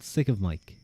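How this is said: The stress falls on the word Mike. "I feel like I put the emphasis on Mike"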